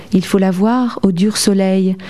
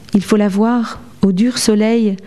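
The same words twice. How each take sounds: No difference in how they are said.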